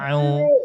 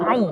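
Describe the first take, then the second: First: The sound starts lightly, without a forceful jolt. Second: The sound starts with an abrupt, forceful jolt. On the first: The speaker calls it right. "Biasa aja. ... Dia ringan aja" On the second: The speaker calls it wrong. "bukan au, bukan seperti itu. Itu itu menghentakkan namanya"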